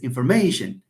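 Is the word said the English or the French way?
English. The word is said with an English pronunciation. "In English, no, it's information"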